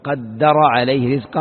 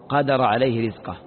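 First: The middle consonant of the verb is doubled. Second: The middle consonant of the verb is single. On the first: "وقد يشد الفعل" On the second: "ويخفف"

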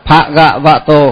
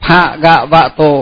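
The two takes are said the same way.

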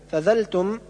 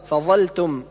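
First: The consonant is a plain dh sound. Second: The consonant is an emphatic z sound. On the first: The speaker calls it wrong. "جعل الظاء ذالا" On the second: The speaker calls it right. "والصواب فظلتم"

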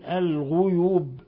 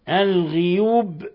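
First: The first vowel after gh is u. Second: The first vowel after gh is i. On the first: "بضم الغين" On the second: "بكسر الغين"

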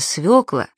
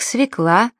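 First: The word is said with a 'yo' vowel. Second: The word is said with an 'e' vowel. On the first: The speaker calls it right. "правильно" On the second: The speaker calls it wrong. "таких слов-уродцев"

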